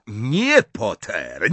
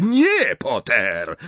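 First: Raised NIE, dropping on Potter; shouted refusal. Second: Shouted refusal. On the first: Snape blocking Potter's spell, shouting. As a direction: cry no, then let the name fall. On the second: Snape forbidding Potter's spell, escalated shout. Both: A narrator's reading. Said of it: "krzyknął Snape".

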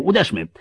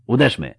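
First: High, loud, fervent exhortation; emphatic cry. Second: Restrained, brief repeat; calm, unemphatic. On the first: Officer urging the marshal to strike, emphatic shout. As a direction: urge the strike at full emphasis. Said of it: "spokojnie i już bez emfazy". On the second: Officer repeating his advice to the marshal, calm. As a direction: say it evenly, with the fervour gone. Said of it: "powtórzył Keith Van Loo, spokojnie i już bez emfazy". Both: A narrator's reading.

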